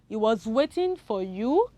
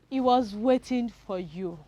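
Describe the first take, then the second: First: The voice rises at the end. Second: The voice falls at the end.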